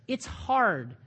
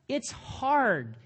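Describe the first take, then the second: Both takes have the same delivery.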